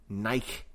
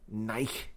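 Both takes have the same delivery.

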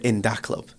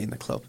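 First: The middle word starts with a d sound. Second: The middle word starts with a th sound. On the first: "it's called In Da Club, so I have to say it like that" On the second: "I can't just say In the Club"

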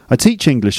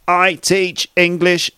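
First: The words are said quickly and run together. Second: The words are said slowly, one at a time. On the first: "the way a native speaker will say this sentence really quickly" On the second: "a robot would say"

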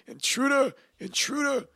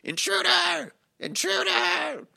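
First: It is said in the speaker's own voice. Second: It is said imitating another person's voice.

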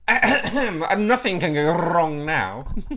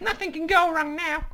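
First: It is said in the speaker's ordinary voice. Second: It is said in a put-on female New York accent. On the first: "Now do it in your voice so we can tell the difference" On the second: "That's my Jesse voice. ... my sort of ladies' New York voice"

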